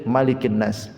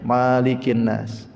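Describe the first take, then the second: First: The first vowel is kept short. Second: The first vowel is drawn out long. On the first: "dibuang alif" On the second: "ditetapkan alifnya"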